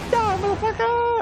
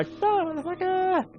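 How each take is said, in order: First: Very high, louder, punchy villain yell; mock action-movie threat; movie-line impersonation. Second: Very high, slow, drawn-out villain taunt; drawled mock threat; slower movie-line impersonation. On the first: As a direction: bark it like a hammed-up movie villain. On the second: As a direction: stretch it out like a cartoon villain. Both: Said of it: "it's impersonating a movie line".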